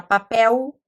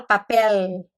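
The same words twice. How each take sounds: First: "papel" said papéu, L turned to a U glide; final l as u. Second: "papel" ending in a real L, papél; final l pronounced. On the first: Teacher showing the regional ending of "papel". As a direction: end "papel" with a U sound like locals. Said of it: "a gente não fala papel". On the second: Teacher showing the textbook ending of "papel". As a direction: close "papel" with the tongue-tip L. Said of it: "a gente fala papel". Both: Shown as a demonstration.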